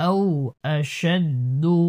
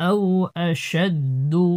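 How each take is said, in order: No difference in how they are said.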